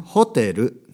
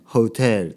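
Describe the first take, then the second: First: It is said with a Japanese pronunciation. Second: It is said with an English-style pronunciation. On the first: The speaker calls it right. "日本語の発音です" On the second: The speaker calls it wrong. "ホテルとか言われても多分わからないんですよ"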